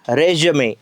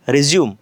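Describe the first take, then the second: First: The word ends with an added vowel sound. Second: The word ends on the m sound. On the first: It means a document listing one's qualifications. "रेज्युमे असा जर केला तर याचा अर्थ होतो biodata" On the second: It means continuing from where something stopped. "याचा जर उच्चार रिझ्यूम कसा केला"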